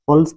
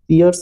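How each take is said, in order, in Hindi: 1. स्वर 'per' जैसा है, इसमें ग्लाइड नहीं है। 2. स्वर 'peer' जैसा है, इसमें एक ग्लाइड है। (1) "पल्स पढ़ाएगा" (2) "पियर्स ये अक्सर बोलते हैं लेकिन ये गलत है"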